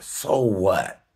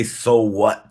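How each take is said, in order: First: Said in the usual way. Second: "so what" shouted much louder, stress on "so". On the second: Shown as a demonstration. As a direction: bark "so what" at the thought, loud.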